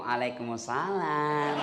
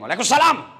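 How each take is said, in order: First: It is said softly with a lilting, drawn-out tune. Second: It is said firmly and curtly, without lilt.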